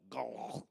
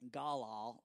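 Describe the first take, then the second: First: The word is said deeper in the throat. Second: The word is said plainly, not deep in the throat. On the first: The speaker calls it right. "it's probably deeper in the throat" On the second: The speaker calls it wrong. "which I'm probably really mispronouncing"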